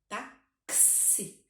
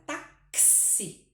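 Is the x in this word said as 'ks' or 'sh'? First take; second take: ks; ks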